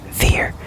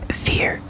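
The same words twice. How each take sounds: Both takes have the same delivery.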